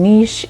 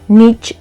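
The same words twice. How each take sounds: First: It is said the British way. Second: It is said the American way. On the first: "niche is European or British English" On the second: "niche is American"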